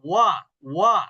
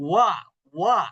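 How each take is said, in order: No difference in how they are said.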